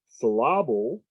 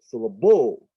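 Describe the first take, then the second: First: The stress is on the middle syllable. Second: The stress is on the last syllable. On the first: "Now the stress is on the middle" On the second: "now it's on the end"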